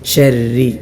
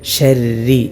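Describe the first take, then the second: No difference in how they are said.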